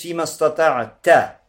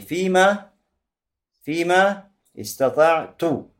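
First: The last word ends with an 'a' vowel. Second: The last word ends with a 'u' vowel. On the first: "то есть с фатхой на конце" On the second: "А возможно, что с даммой"

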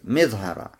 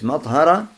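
First: The first vowel is a front i sound. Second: The first vowel is an open a sound. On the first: "можно говорить с кесрой" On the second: "Первый вариант с фатхой"

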